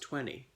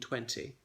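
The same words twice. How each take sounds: First: The middle T is dropped. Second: The middle T is clearly pronounced. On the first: "it often comes out as twenty. So the um, T is omitted" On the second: "Remember the strong T, okay? Punish that T. So it's not elided"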